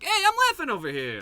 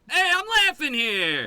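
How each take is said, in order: First: It is said in a friendly, cordial tone. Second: It is said in a confrontational, aggressive tone.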